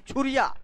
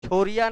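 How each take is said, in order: First: The first vowel sounds like 'u'. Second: The first vowel sounds like 'o'. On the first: The speaker calls it right. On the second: The speaker calls it wrong.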